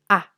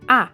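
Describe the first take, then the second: First: The vowel is short and quick. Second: The pitch sounds firm and affirmative. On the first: "corto y rápido" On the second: "un tono afirmativo"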